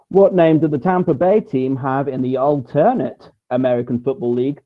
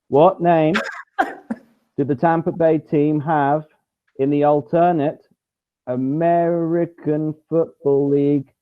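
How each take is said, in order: First: It is read at a normal speaking pace. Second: It is read very slowly and deliberately.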